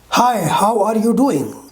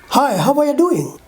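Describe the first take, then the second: First: Every word is said fully and separately. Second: The words are shortened and run together. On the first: "Comparing unreduced and reduced pronunciation" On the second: "Reduced form"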